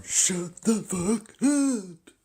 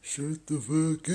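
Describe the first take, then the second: First: High, slow, shrieking yell; drawn-out high furious shout; mock shouted insult. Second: High, loud yell a bit quicker; shrill yelled repeat; mock shouted insult. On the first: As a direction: screech it out like the angry clerk. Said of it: "He's going". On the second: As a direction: snap it back like the clerk. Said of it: "That's what he went".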